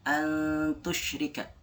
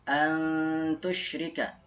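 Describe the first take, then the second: Both takes have the same delivery.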